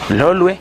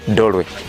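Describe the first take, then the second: First: The name begins with an L sound. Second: The name begins with a D sound. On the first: This is the islanders' own form of the name. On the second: This is the form used by the fishermen who came later.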